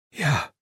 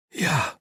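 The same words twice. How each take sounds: First: High, breathless little yelp; panted. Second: High, short gasp of assent; breathed. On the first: Piper agreeing while half strangled, panting. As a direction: pant it out in one short burst. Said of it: "panted Piper". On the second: Piper unable to nod, breathing his answer. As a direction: breathe it out with no air to spare. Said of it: "Piper breathed". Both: A narrator's reading.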